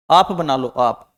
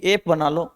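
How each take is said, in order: First: आप said low with a long open aa; drawn-out आप, as in aa not ae; modelling the sound aap. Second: एप read as it is spelt, with a short e; first take, the letters read as written; naive spelling-sound reading. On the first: Teacher correcting ep to आप for the class. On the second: Teacher reads the letters before correcting. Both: Shown as a demonstration.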